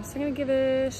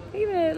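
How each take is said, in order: First: Said in the usual way. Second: Pitched much higher, teasing; suspense build. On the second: Real, not acted. Teasing viewers before revealing the burger's rating, pitched up high. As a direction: hold them in suspense before the score.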